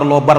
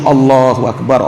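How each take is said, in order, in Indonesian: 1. Diucapkan terburu-buru dan menyatu jadi satu kata pendek. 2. Setiap suku kata diucapkan penuh dan jelas. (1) "ngucapin zikirnya terlalu cepat, kadang tersalah-salah itu bacaannya" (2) "Kita ucapkan zikir itu dengan khusyuk"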